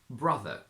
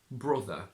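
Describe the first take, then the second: First: It is said with an RP 'ah' vowel. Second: It is said with a Geordie 'oh' vowel. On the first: "from R P" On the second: "to Geordie"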